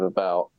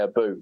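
First: It is said with a British pronunciation. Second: It is said with a Canadian pronunciation. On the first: "instead of about" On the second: "because you guys say about"

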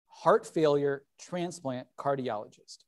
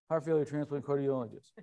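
First: The phrase is said more slowly and clearly. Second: The phrase is said quickly, run together. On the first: "So he repeated it a little more slowly" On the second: "Except he said it like this"

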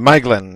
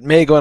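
First: The first vowel sounds like 'eye'. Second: The first vowel sounds like 'ay'. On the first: The speaker calls it right. "Maeglin is the correct pronunciation" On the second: The speaker calls it wrong. "he says it Maeglin all the way through"

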